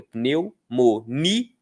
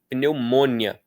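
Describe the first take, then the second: First: Pneumonia broken into slow syllables, NI strong; stress on NI. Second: Pneumonia with MON punched, the ending quick; stress on MON. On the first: Teacher showing where Brazilians put force, stress on NI. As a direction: slowly spell out pneumonia, leaning on ni. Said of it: "A gente fala com força no ni". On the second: Teacher showing a wrong Portuguese stress, stress on MON. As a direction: hit mon in pneumonia, hurry the rest. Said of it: "depois que a força tá no mon". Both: Shown as a demonstration.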